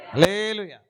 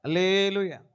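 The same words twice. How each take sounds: First: A louder, ringing hallelujah; loud hallelujah. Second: Said in the usual way. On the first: Real, not acted. Preacher leading the crowd, a loud hallelujah. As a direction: call out hallelujah with full voice. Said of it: "హల్లెలూయా చెప్పాలి". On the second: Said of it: "కొంచెం గట్టిగా మాట్లాడతారా?".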